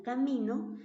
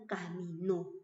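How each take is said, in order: First: "camino" stressed on MI; stress on the middle syllable. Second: "caminó" stressed on NÓ; "caminó" as ca-mi-NÓ, drawn out for contrast; stress on the last syllable. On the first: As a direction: say "camino" with the weight on mi, ending unstressed. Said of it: "En qué se diferencian estas palabras". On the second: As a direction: say "caminó" slowly, landing firmly on the final nó. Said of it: "una lleva tilde". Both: Shown as a demonstration.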